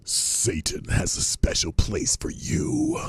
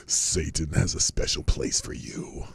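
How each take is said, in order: First: Eerie high whisper, drawn out; high unvoiced sinister whisper; spooky Satanist line. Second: Low breathy whispered menace; creepy Satanist whisper. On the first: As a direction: breathe it like a creepy cultist. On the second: Retold or imitated. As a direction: hiss it like a sinister devotee. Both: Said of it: "that last line by the Satanist".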